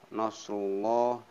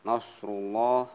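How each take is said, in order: The two takes are said the same way.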